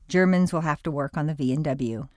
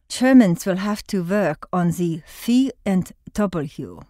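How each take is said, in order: First: It is said in a plain American accent. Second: It is said in a put-on German accent.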